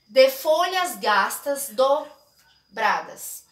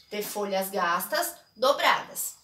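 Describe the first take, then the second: First: Slow, syllable by syllable: "de fo-lhas gas-tas do-bra-das"; spelled out by syllable. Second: Said in the usual way. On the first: Shown as a demonstration. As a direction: break "de folhas gastas dobradas" into its grammatical syllables, one at a time. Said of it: "é uma divisão silábica gramatical". (sílaba por sílaba, bem devagar) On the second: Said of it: "Ó, de folhas gastas dobradas".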